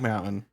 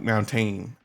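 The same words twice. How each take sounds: First: The middle T sound is left out. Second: The middle T sound is clearly said. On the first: This is the speaker's own dialect. The speaker calls it wrong. "I missed the T entirely" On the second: This is the standard way. The speaker calls it right. "supposed to be pronounced like mountain"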